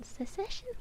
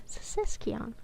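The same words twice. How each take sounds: First: Said in the usual way. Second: "Secession" said as "se-SESK-ion", falling; "Secession" ending in an added "kion". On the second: Shown as a demonstration. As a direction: settle on "Secession" with a hard k before "ion". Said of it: "Where you getting the Kion from?".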